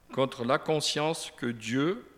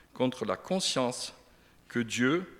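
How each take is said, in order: No difference in how they are said.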